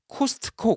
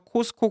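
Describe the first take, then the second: First: The word has a strong, clearly heard t sound. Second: The word is said without any t sound. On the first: The speaker calls it wrong. "트 발음이니까 또 아주 세니까 확 들려요" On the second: The speaker calls it right. "차라리 그냥 코스코"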